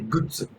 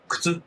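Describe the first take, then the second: First: It is said in Yamagata dialect. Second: It is said in standard Japanese.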